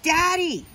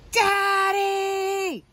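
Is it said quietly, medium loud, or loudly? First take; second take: medium loud; loudly. First: It is said a little louder. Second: It is yelled as loud as possible.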